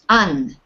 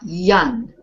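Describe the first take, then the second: First: The syllable starts directly with the vowel. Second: The syllable starts with a y sound. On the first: The speaker calls it right. "it's pronounced un" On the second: The speaker calls it wrong. "and not yun"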